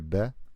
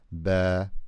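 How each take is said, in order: First: The vowel is short and clipped. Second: The vowel is drawn out and long. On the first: The speaker calls it wrong. "you don't say here ba" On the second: The speaker calls it right. "You say here ba. It's longer"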